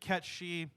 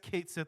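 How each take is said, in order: First: The name sounds like 'ketchee', run together. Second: The name sounds like 'kate sith', two separate words. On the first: This is the original form of the name. "it's supposed to be Ketchi" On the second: This is the commonly accepted form now. "I guess Kate Sith is fine. I'll technically that's the official pronunciation now"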